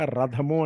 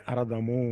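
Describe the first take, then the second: First: Said in the usual way. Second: అరథము with an extra "a" at the front; mispronounced రథము. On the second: Retold or imitated. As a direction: start అరథము on a vowel before the r. (ముందు 'అ' చేర్చి "అరథము" అని పలకడం) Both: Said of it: "ఆ పలకడం చేత కాక".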